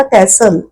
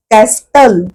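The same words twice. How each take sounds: First: कॅसल with a silent T, no T sound at all; correct pronunciation. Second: कॅस्टल with the T sounded, the wrong way; teacher sounds कॅस्टल with a clear T to show the mistake; wrong pronunciation. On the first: A teacher modelling the correct silent-T कॅसल. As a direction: say कॅसल smoothly, dropping the T. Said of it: "उच्चार करायचा कॅसल". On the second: A teacher demonstrating the wrong, T-voiced कॅस्टल. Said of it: "कॅस्टल असं नाही म्हणत आपण". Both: Shown as a demonstration.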